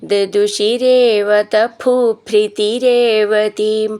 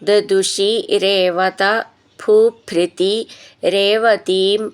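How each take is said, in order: First: The words are run together without breaks. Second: The words are separated with small breaks.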